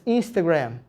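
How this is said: It is said with an English pronunciation.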